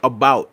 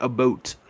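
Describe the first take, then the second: First: Said in the usual way. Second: "about" said as "a-boat", the ow rounded to oh; soft, lightly mimicked "about" as "a-boat"; Canadian-style about. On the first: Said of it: "he used to always pronounce, like". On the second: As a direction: imitate the teacher: "about" with a long oh, "a-boat". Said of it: "He used to always be like".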